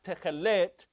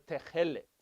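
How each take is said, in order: First: The stress is on the last syllable. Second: The stress is on the first syllable. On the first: The speaker calls it wrong. "So not techelet" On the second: The speaker calls it right. "Then it goes to the first syllable"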